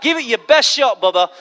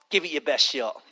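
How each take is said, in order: First: Full-voiced, open challenge; bold dare. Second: Low, soft, offhand challenge; quiet dare. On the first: Daring the plane to fall, bold full voice. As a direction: throw the dare out firmly. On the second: Retold or imitated. Boarding the plane unafraid, low quiet dare. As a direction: drop low and toss it away.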